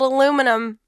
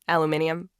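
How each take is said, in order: First: It is said with four syllables, a-LU-mi-num. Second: It is said with five syllables, a-lu-MIN-i-um. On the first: "The Americans picked up on that spelling and pronunciation" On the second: "the British scientists argued it should be aluminium"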